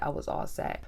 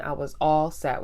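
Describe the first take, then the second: First: Whispered, much softer, final; hushed emphatic whisper. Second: Said in the usual way. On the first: Real, not acted. Telling viewers she was done with him, in a soft whisper. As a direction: drop to a whisper to drive it home. Emphatic repeat after "when I tell you.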